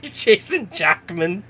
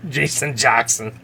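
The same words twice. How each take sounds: First: Slow, giggling misreading of the name "Jackman"; laughing misread. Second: Said in the usual way. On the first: Real, not acted. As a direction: stumble over "Jackman" through a laugh.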